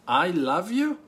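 It is said in a mocking, sarcastic tone. The speaker is mocking the listener and does not love them. "Third, that you're mocking me and you hate me and you don't love me at all"

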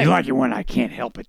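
It is said in a deep, gruff put-on voice. The speaker calls it right. "Do it again"

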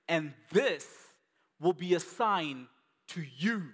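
The words this and you are stressed.

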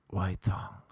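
It is said in a put-on sexy voice.

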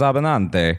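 The surname is said in an Italian way. The speaker calls it right. "this Italian barber. He's like, no, it's Abinante"

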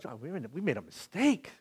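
It is said in a tearful, crying voice. The speaker calls it right. "I was like, you know, like we cried"

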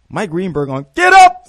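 It is said with lively enthusiasm.

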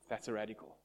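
It sounds disapproving and judgmental.

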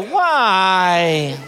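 It sounds whiny.

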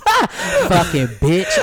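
It is said in a sweet, pretty voice.

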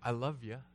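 It is said lightly, like a casual greeting. It is just a friendly hello. "colloquially, like, I love you, in the sense of like general hello"

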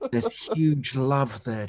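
It is said in a hushed, awestruck manner. "Can you give it a bit more awe?"

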